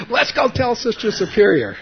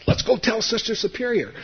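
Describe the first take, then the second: First: Put-on much higher and louder kid voice; eager kids calling. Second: Put-on much higher kid voice, breaking into laughter; laughing kids. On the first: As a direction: shout it like excited friends. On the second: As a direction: laugh through the friends' eager line. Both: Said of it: "my friends grabbed me and said".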